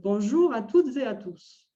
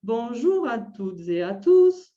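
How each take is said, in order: First: The melody follows a natural French intonation pattern. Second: The melody follows an odd, off-key intonation pattern. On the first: The speaker calls it right. "plutôt la deuxième" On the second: The speaker calls it wrong. "la première, ça serait ... Ça ne va pas non plus. ça sonne faux"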